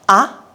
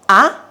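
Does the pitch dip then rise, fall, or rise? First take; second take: rise; rise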